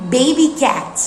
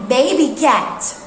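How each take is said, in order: Both takes have the same delivery.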